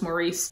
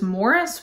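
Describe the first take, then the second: First: The name does not sound like 'Morris'. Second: The name sounds just like 'Morris'. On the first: This is the speaker's own habitual way of saying the name. "I'm gonna continue to call this Maurice" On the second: This is the British way of saying the name. "the English pronunciation of this is Morris"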